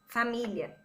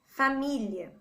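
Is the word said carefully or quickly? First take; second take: quickly; carefully. First: It is said fast, the 'li' sounding like 'lh'. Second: It is said slowly with a separate 'li' syllable.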